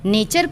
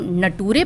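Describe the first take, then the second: First: The middle sound is ch. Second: The middle sound is t. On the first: The speaker calls it right. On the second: The speaker calls it wrong.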